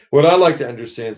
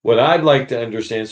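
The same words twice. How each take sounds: First: Higher, quick aggrieved demand; indignant big ghost. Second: Said in the usual way. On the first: Acted. Big ghost demands answers of the bright spirit, aggrieved. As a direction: press him like a wronged man. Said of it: "said the ghost". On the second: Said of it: "the ghost doesn't hear this".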